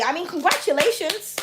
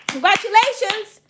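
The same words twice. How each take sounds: First: Said in the usual way. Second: Higher and louder, beaming; excited congratulations. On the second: Real, not acted. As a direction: cheer it out warmly. Repeats congratulations bigger.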